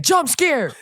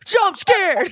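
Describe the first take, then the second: First: High, loud, laughing shout; spring it on them like a prank; mock shout. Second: Much higher, louder yelp; mock shout. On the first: Host acting out jump-scaring opponents, loud mock shout. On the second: Host jump-scaring opponents again, louder mock shout. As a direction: yell it to spook someone. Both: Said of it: "run up to opponents and be like".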